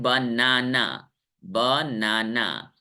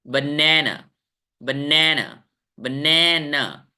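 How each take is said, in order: First: बनाना as ba-naa-naa, every syllable long and level; low, slow बनाना with equal weight like Hindi नाना; wrong, even reading. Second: बनाना as buh-NAE-nuh, middle syllable long and strong; correct English stress. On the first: Teacher mimics students' habitual reading, flat-stressed ba-naa-naa. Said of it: "इसको आप लोग पढ़ते हैं". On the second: Teacher models the right way for students, stressed buh-NAE-nuh. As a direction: stretch the middle of बनाना, short first and last. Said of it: "सही तरीका है इसको पढ़ने का". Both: Shown as a demonstration.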